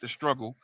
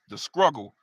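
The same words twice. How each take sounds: First: The word starts with a plain 'str' sound. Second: The word starts with an 'scr' sound. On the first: "not the struggle" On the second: "S C R U G G L E"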